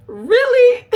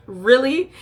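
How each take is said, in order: First: Very high, loud, squealed really; shrill mock shock; shrieked really. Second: Higher, louder skeptical really; mock disbelief; incredulous really. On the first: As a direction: peak disbelief. Third incredulous reaction. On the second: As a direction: judgmental rising really. Reacting to making out.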